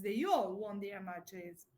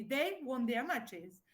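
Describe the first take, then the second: First: "all" stressed, slow sentence; emphasis on ALL. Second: Said in the usual way. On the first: Shown as a demonstration. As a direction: lean on the word "all", taking it slowly. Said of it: "To emphasize". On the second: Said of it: "the canonical or-, order would be".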